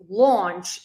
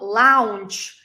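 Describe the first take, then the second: First: The vowel sounds like 'aw', between o and r. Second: The vowel sounds like 'ow' in 'cow'. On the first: The speaker calls it right. "it's launch ... something between O and R" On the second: The speaker calls it wrong. "It's not lounge, ... it's not lao"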